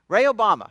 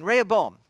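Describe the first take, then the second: First: Rehoboam slipped into "ray-oh-BAH-ma"; name slip. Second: Said in the usual way. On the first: Real, not acted. Preacher naming the king to his congregation, Rehoboam misspoken as "ray-oh-BAH-ma". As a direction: stumble on Rehoboam, ending it like "Obama". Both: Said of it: "I mean, Rehoboam, excuse me".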